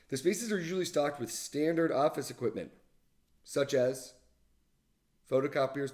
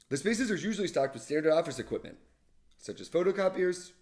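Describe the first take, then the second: First: There is a pause after 'such as'. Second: There is no pause after 'such as'.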